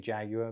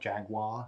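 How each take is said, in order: First: It is said with a British pronunciation. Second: It is said with an American pronunciation.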